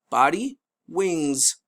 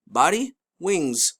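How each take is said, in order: Both takes have the same delivery.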